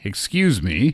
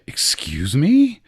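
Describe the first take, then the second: First: It is said in a polite tone. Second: It is said in an offended tone.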